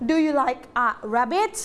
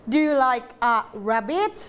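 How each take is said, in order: First: "rabbit?" ends on a clear rise; rising question tune. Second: Slow, with "rabbit?" rising at the end; rising question tune. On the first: Teacher demonstrating a question to students, rising tune. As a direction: lift the pitch at the end on "rabbit". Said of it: "เหินเสียงสูง ยกตัวอย่างเช่น". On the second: Teacher repeating the question for the class, rising tune. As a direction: ask it, pitch going up on "rabbit". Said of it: "หางท้ายประโยคเป็นไง". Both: Shown as a demonstration.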